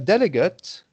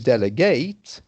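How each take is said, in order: First: It is pronounced as the noun form. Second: It is pronounced as the verb form. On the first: "Like a delegate" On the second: "the verb to delegate, but pronounced differently"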